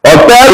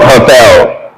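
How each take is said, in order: First: Hotel said "otel", without the H; silent H. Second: Said in the usual way. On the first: Shown as a demonstration. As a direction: drop the H of hotel. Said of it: "hotel is not hotel". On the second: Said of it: "not hotel".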